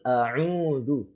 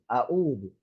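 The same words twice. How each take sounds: First: The ain sound is clearly throaty and distinct. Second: The ain sound blurs into a plain glottal stop. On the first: The speaker calls it right. "Yang betul" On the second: The speaker calls it wrong. "Itu salah"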